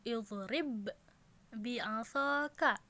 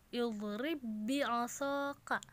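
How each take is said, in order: First: The first b is released separately before the second. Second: The first b merges into one doubled b. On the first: The speaker calls it wrong. "bukan idrib bi'asaka, bukan seperti itu" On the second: The speaker calls it right. "huruf yang pertama itu langsung dimasukkan kepada huruf yang kedua"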